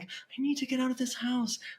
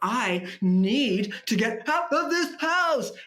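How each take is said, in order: First: It sounds natural, driven by real intention. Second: It sounds like an overacted, read line.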